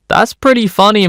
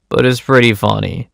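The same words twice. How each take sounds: First: High-pitched, teasing admission; mock conceding. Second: Said in the usual way. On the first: Narrator wavering over a theft story, mock conceding. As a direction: say it high, as a playful confession. Torn between disapproval and amusement.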